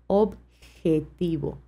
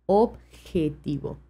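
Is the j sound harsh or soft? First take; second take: soft; soft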